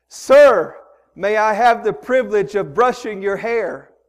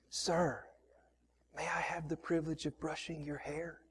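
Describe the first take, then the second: First: Loud, higher, raised voice; louder. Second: Unvoiced whisper, trying not to be noticed; breathy hushed whisper so no one notices. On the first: Retold or imitated. Woman repeats her question loudly to deaf man. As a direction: call it out so he can hear. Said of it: "talk louder than that". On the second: Woman whispering to old man at airport, whisper. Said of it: "she tries to whisper".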